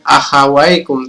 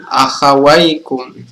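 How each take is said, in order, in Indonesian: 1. Bunyi 'ai' dibaca pendek. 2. Bunyi 'ai' ditahan selama dua harakat. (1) "bukan akhawaikum" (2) "tapi akhawaikum"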